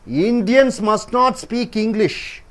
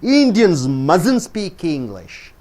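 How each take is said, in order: First: The two words must and not are said separately. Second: The words are run together as one contracted word. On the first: The speaker calls it wrong. "You don't say must not" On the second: The speaker calls it right. "you say mustn't"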